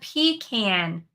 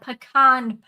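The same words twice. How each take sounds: First: It is said like 'pea can'. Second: It is not said like 'pea can'. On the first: The speaker calls it wrong. "It is not a pecan pie. We don't pea in a can" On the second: The speaker calls it right. "It is a pecan pie"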